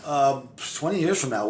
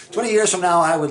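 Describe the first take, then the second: First: Said in the usual way. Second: Higher and louder, laughing restart; excited. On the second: Real, not acted. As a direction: launch it again, pumped up. Restarts the answer after a laugh.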